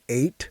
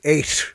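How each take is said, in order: First: The final T is said in a plain way. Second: The final T has an odd Boston-Irish sound. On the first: "instead of saying eight" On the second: "I would say eight. It's like a weird"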